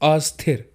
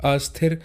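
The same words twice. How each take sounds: The two takes are said the same way.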